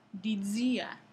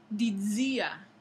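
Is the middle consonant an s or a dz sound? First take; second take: dz; dz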